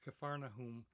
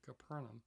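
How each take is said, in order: First: The name is said as Capharnaum. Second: The name is said as Capernaum. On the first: This is the proper form of the name. The speaker calls it right. "but it's Capharnaum" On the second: This is how some people say it. The speaker calls it wrong. "some people pronounce it"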